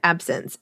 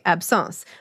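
First: The word is pronounced the English way. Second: The word is pronounced the French way. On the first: "I hear it in my head as the English word absence" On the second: "you pronounce it the French way"

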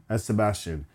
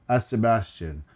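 Both takes have the same delivery.

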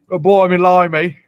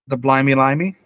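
First: It is said in a put-on British accent. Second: It is said in the speaker's ordinary accent. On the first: The speaker calls it right. "I need you to say it properly" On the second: The speaker calls it wrong.

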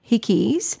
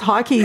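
First: The first vowel is short, as in 'hick'. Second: The first vowel is long, as in 'hike'. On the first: "I don't know why they're called Hickeys" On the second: "Maybe it's Hikeys"

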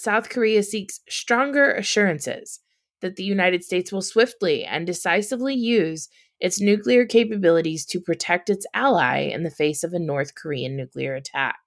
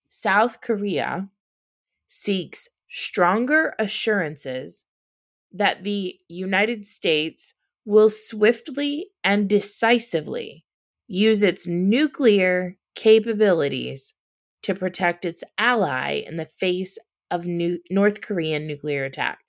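First: It is read at a normal pace. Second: It is read very slowly.

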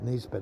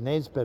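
First: The first vowel sounds like the one in 'bit'. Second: The first vowel sounds like the one in 'bed'. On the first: This is not how people there say the name. "not Nisbet" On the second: This is how people there say the name. "I think they pronounce it Nesbet over there"

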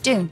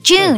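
First: The word begins with a 'd' sound. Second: The word begins with a 'j' sound. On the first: The speaker calls it right. "It's pronounced Dune. Like D-O-O-N" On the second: The speaker calls it wrong. "You are both pronouncing that incorrectly. June, you're saying June. That's J-U-N-E you're saying"

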